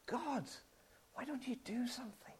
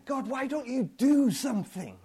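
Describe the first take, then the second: First: Hushed, desperate whisper to God; whispered cry. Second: Fed-up, demanding question to God; exasperated demand. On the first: Pretend. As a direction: whisper it like a broken plea. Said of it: "you cry out to him". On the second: Retold or imitated. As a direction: throw the question at God in frustration.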